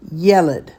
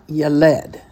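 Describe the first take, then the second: First: "Yeled" said YEH-led; teacher's correct "Yeled", accent up front; stress on first syllable. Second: "yeled" said ye-LED, slowly; wrong final stress. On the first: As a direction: hit the "Ye" and let "led" fall away in "Yeled". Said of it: "The accent is on the yeh". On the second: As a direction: land hard on "led" in "yeled". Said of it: "not yeled". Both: Shown as a demonstration.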